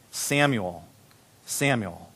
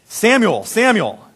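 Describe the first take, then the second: First: Low, hushed call of a name; soft calling. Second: Raised, higher call of a name. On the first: The Lord stood there calling Samuel, softly. God calls in quiet retelling. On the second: The Lord calling to the little boy Samuel, calling out. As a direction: call out to someone. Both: A narrator's reading.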